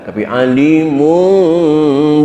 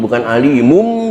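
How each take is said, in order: First: The lips close slowly with a nasal hum. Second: The ending is a full, abrupt m sound. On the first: The speaker calls it right. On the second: The speaker calls it wrong.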